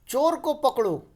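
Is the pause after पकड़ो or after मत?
after पकड़ो. There is a pause after पकड़ो.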